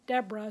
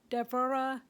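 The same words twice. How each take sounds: First: The name is pronounced the anglicized English way. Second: The name is pronounced the original Hebrew way. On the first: "it got anglicized to Deborah" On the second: "that's actually the correct way to pronounce her name"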